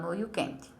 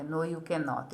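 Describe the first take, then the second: First: No, you can't with the short contracted can't; teacher's casual can't. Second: No, you cannot said in full as kæn-not, two clear syllables; teacher's full cannot; full form cannot. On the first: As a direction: clip it to can't like Americans. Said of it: "Eles falam". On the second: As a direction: spell out cannot, no contraction. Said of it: "Os americanos não falam". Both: Shown as a demonstration.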